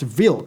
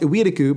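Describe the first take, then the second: First: The name is said with Polish sounds. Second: The name is said with Japanese sounds and syllables. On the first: "based on my research, it's pronounced Wilk" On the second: "In Japanese, it's pronounced Iwiriku"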